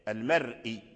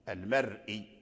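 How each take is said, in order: No difference in how they are said.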